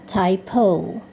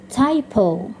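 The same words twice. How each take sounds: The two takes are said the same way.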